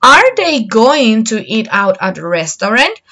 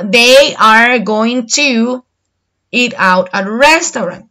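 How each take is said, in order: First: Are they going to eat out at a restaurant? rising at the end; rising question tune. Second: They are going to eat out at a restaurant, slow and falling; flat affirmative statement; statement tune. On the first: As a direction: lift the voice into a question. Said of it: "you have to make the tone of your voice different". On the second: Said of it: "if you say it in affirmative". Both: Shown as a demonstration.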